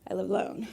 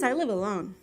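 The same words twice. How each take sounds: First: It is said suggestively, hinting at an invitation. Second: It is said plainly, as a literal statement.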